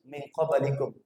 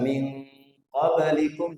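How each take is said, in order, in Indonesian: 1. Dengung nasal dihilangkan dan dipotong pendek. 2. Dengung nasal ditahan dua harakat. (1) "jadi min qablikum, hilang" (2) "yang dibaca min qablikum"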